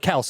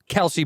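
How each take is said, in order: First: The name is said with one syllable. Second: The name is said with two syllables.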